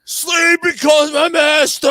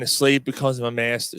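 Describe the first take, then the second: First: Loud, high, drawn-out scream of a lyric; imitated screaming. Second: Said in the usual way. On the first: Friend up on the concrete barrier at the show, screaming the lyric. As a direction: belt it like a crazed metal fan. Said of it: "he's fucking screaming". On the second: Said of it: "they're playing End of the Line".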